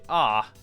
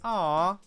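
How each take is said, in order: First: It sounds let down, falling at the end. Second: It sounds warm and delighted. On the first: Something is disappointing. "goes down at the end, that's disappointment" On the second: Something is cute. "that's, oh, it's so cute"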